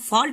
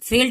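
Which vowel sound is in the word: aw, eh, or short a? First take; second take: aw; eh. First: The vowel is a long open aw sound. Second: The vowel is a short eh sound. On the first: The speaker calls it right. "फॉल्ट हम पढ़ते हैं" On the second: The speaker calls it wrong. "फेल्ट यहाँ पे नहीं पढ़ेंगे"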